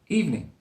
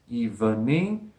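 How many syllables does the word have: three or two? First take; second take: two; three. First: The word is said with two syllables. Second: The word is said with three syllables. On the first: The speaker calls it right. "I say evening. With two syllables, not three" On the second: The speaker calls it wrong. "doesn't sound right to me"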